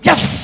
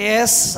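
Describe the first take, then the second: First: The word is said loudly and forcefully. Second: The word is said softly and weakly. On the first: The speaker calls it right. "గట్టిగా చెప్పాలి" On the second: The speaker calls it wrong. "ఎస్ అనొద్దు"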